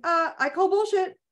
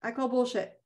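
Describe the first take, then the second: First: High, firm call-out on bullshit; first take, pitched up and defiant. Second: Softer, settled repeat of I call bullshit; second take, dropped and quieter; quiet firm repeat. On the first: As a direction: throw it back at the pain. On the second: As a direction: say it again, calmly certain. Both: Shown as a demonstration. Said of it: "or going".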